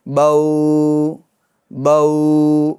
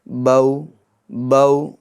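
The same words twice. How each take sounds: First: The vowel sound is stretched out long. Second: The vowel sound is kept short. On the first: The speaker calls it wrong. "इस तरीके से नहीं, ये खींचना नहीं है" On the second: The speaker calls it right. "बल्कि"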